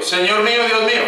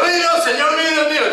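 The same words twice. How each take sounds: First: Said in the usual way. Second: High, awestruck exclamation of Tomás; the faltering, amazed disciple blurting it out high; awed cry. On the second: Retold or imitated. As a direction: gasp it out, overwhelmed before the Lord. Tomás's overwhelmed cry retold.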